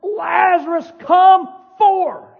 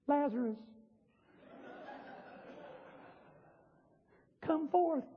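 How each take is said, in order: First: Loud, high, commanding yell; booming summons at full voice; mighty shout. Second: Far too soft to raise anyone; hushed, feeble summons; mock timid call. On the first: Acted. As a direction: bellow it to wake the dead. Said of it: "He said in a voice that I can't even use". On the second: Shown as a demonstration. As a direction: call out meekly, barely audible. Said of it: "N-, no. He said in a voice".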